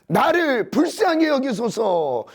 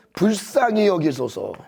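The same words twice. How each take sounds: First: Pleading. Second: Said in the usual way. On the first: Retold or imitated. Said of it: "소리질러 이르되". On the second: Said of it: "여기도 또 나오죠".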